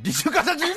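It is said with strong, accusing emotion.

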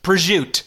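It is said in a New Jersey style pronunciation. "you go to Jersey and it's just"

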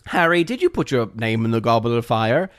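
It is said in a calm, quiet manner.

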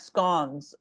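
The word is said the British way. "I feel like Brits say more like scones"

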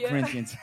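The name is said with an English accent.

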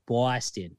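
The first vowel sounds like 'aw'. The speaker calls it right. "it's B-A-W, like Boston"

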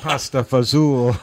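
The name is clipped in New Jersey slang style.

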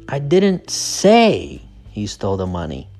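The word 'say' is stressed. The speaker only suggested it. "So the stress is on say"

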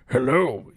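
It is said in a put-on old man's voice.

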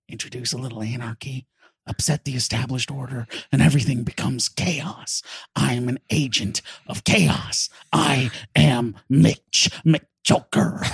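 It is said in a Joker-style impression voice.

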